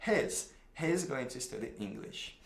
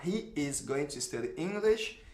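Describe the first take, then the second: First: "He's" run together as one syllable, lower and softer; contracted form. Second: "He is going" with both words said in full; full form. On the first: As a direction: squeeze "He's" into one sound. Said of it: "Então, você vai falar contraído". (forma contraída, "He's" numa sílaba só, mais grave e baixo) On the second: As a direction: spell out "He is" slowly, uncontracted. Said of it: "Ao invés de eu falar". (forma completa, "He is" bem separado) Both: Shown as a demonstration.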